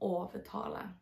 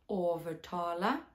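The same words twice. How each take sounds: First: The word is said with no R sound. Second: A soft R sound is heard in the word. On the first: "jak to powiem bez R" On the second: "tylko on jest wymawiany właśnie tak jak angielskie R w very"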